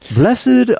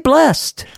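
First: The word is said with two syllables. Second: The word is said with one syllable. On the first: "Somebody had two notes and only one word. They kind of split it up" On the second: "And just say blessed"

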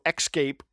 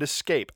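First: An extra k sound comes before the s. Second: The s comes with no k sound before it. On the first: The speaker calls it wrong. "It's not espresso, escape" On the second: The speaker calls it right. "And escape, Al"

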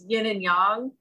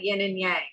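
First: The words are said the Chinese way. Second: The words are said as English spelling suggests. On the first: The speaker calls it right. "it's yin and yang" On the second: The speaker calls it wrong. "not yin and yang"

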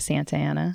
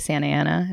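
First: The T in Santa is clearly pronounced. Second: The T in Santa is dropped, Californian style.

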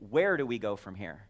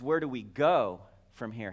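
First: The word "where" carries the main stress. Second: The word "go" carries the main stress. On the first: It asks about the destination. "Where is it that we're going?" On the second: It asks about the way of going. "How do we go?"

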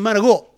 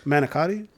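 First: It is said with an Italian-American accent. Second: It is said with a plain American accent. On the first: "all the Italians I knew back in Brooklyn" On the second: "You mean manicotti?"

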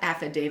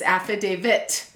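First: The word ends with a D sound. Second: The word ends with a T sound. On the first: The speaker calls it wrong. "Not affidavit. There's no David in affidavit" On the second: The speaker calls it right. "It ends in a T"

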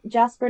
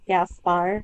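First: The name begins with a J sound. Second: The name begins with a hard G sound. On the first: The speaker calls it wrong. "I knew it was not Jasper" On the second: The speaker calls it right. "whose name I knew how to pronounce"

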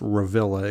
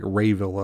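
First: The first syllable sounds like 'reh'. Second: The first syllable sounds like 'ray'. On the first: "I'm assuming that's Revilla" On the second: "It could be pronounced like Rayvilla or something"

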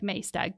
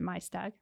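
First: The name is pronounced as it looks written. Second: The name is pronounced the way locals say it. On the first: The speaker calls it wrong. "It looks like Maesteg" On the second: The speaker calls it right. "I'm pretty sure they pronounce it Maesteg"

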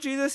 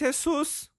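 First: The name is said with English pronunciation. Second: The name is said with Spanish pronunciation. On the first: The speaker calls it wrong. "it's not Jesus" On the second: The speaker calls it right. "it's Jesus"

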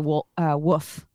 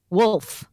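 First: The L sound is left out. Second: The L sound is clearly pronounced.

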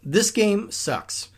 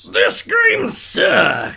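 First: It is read in a plain voice. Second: It is read in an angry put-on voice.

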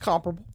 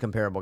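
First: It is pronounced in a fancy, posh-sounding way. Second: It is pronounced the ordinary, everyday way. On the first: It sounds like trying to seem sophisticated. "sounds like you're trying to be a hoity-toity" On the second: This is the speaker's usual way of saying it. "I'm usually a comparable guy"

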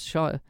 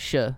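First: The word is said with a long 'shire' vowel. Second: The word is said with a short 'sure' vowel. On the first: The speaker calls it right. "because it's shire" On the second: The speaker calls it wrong. "you don't say sure"

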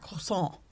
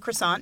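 First: It is pronounced the French way. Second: It is pronounced the English way. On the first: The speaker calls it right. "instead of croissant" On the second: The speaker calls it wrong. "Like I say croissant"

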